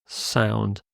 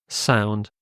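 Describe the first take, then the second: Both takes have the same delivery.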